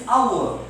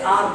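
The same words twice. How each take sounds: First: HOUR as ow-er with silent h; correct pronunciation. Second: R, hour squashed to one syllable "ar"; rapid-speech form. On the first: Teacher models correct hour for students, silent h, ow-er. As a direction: open hour into two sounds, ow-er. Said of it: "its correct pronunciation is hour". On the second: Teacher shows hour in rapid speech, one-syllable ar. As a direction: run hour together as a single AR. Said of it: "In rapid speech, we say R". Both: Shown as a demonstration.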